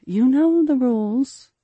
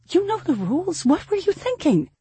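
First: Slow, louder, higher-pitched reminder; firm reminder. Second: Very high-pitched, upset rebuke; angry scolding. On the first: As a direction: draw the rule out, raised and insistent. Mother cuts off daughter's objection. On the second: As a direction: scold the child, pitch flying up in alarm. Frightened mother scolds daughter. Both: A narrator's reading.

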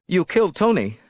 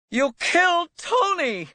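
First: Higher-pitched, controlled accusation. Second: Screamed accusation. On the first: Elizabeth confronting Tony's killer, tense accusation. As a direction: accuse him, voice raised in pitch but held. Accuses him, first take before scream. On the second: Elizabeth accusing Tony's killer, screaming. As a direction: scream it at him, pitch shooting up. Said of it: "She screamed it at him". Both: A narrator's reading.

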